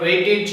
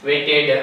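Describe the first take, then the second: First: વેઇટેડ with a final id; correct waited. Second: વેઇટેડ with a final ed; everyday waited. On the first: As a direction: say વેઇટેડ ending in id. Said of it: "સાચો ઉચ્ચાર એનો વેઇટેડ છે". (સાચો ઉચ્ચાર વેઇટેડ) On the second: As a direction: say વેઇટેડ the usual way, ending in ed. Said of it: "આપણે વધારે બોલીએ છીએ એને". (વધારે બોલાતો ઉચ્ચાર વેઇટેડ) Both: Shown as a demonstration.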